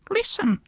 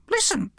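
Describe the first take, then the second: First: High bird voice insisting on "Listen"; high-pitched parrot repeating the warning; repeated parrot hush. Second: High bird voice, urgent and falling; a high warning "listen" from a parrot; high-pitched parrot urging silence; urgent parrot hush. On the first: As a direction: press the point with "Listen", high and falling. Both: Acted. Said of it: "she repeated".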